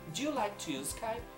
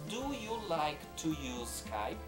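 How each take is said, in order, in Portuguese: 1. É dita rápido, com as palavras juntas. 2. É dita devagar, com cada palavra separada. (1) "na segunda vez eu falo como um nativo falaria" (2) "eu realmente falo uma frase um pouco mais lentamente"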